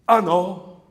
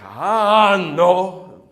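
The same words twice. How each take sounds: First: It is said strictly in tempo. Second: It is drawn out, almost spoken.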